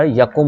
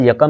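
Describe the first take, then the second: First: यकुम with short u in the last syllable, ya-kum; correct pronunciation demo. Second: यकम with short a in the last syllable, ya-kam; wrong pronunciation demo. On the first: Teacher correcting the word, demo of यकुम as ya-kum. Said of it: "यकुम होता है". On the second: Teacher citing the mistaken form, demo of यकम as ya-kam. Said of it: "लफ्ज़ यकम नहीं होता". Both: Shown as a demonstration.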